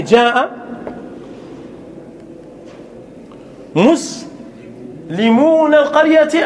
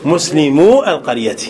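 First: Slow, drawn-out مسلمون القرية with the nun kept, pitched higher; teacher drags out مسلمون القرية as the error; wrong form drawn out. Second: مسلمو القرية said plainly and lower, no nun, falling; teacher settles on مسلمو القرية as the right form; correct form. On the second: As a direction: state مسلمو القرية cleanly with the nun dropped. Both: Shown as a demonstration. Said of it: "أو مسلمو القرية".

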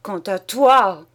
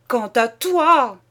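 First: Louder, slow shout dragged out. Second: Louder and higher, slow, voice straining; higher shout. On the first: Husband turning on his wife, slow loud shout. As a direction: hurl it at her, slowly. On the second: Husband repeating at his wife, higher straining shout. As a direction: push it up, almost breaking. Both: Acted. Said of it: "il cria".

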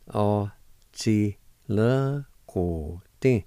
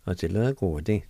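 First: Tí le go tí slowly, syllable by syllable; slow pronunciation. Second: Said in the usual way. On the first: Shown as a demonstration. Teacher to students learning Cherokee, slow careful sounding out. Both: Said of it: "it's pronounced like this".

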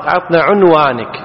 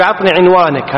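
First: عنوانك starting with u, 'unwanak; corrected pronunciation. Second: عنوانك starting with i, 'inwanak; common mistake. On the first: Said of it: "هذا غلط، عطنا عنوانك". (عنوانك بضم العين) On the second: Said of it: "هذا غلط". (عنوانك بكسر العين خطأً) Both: Shown as a demonstration.

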